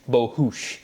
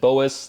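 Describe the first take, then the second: First: The surname is said the Hungarian way. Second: The surname is said the everyday English way. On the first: This is the name's original ethnic pronunciation. The speaker calls it right. "the actual correct ethnic pronunciation of my last name is Bohus. It's Hungarian" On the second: This is how the name has usually been said. The speaker calls it wrong. "I've always said Boas. That's how it's been said to me"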